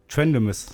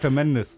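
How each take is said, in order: First: The name begins with the sounds 'trend'. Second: The name begins with the sounds 'trem'. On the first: The speaker calls it wrong. "Wo ich fälschlicherweise den Namen auch Trendemus ausgesprochen" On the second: The speaker calls it right. "Aber heißt Tremendous"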